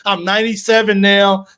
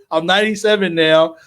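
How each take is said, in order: First: Excited count. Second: Said in the usual way. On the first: Real, not acted. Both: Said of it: "I'm sorry".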